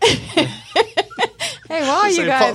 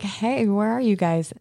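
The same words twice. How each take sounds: First: It is said in a put-on British accent. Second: It is said in the speaker's ordinary accent. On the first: The speaker calls it right. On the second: The speaker calls it wrong.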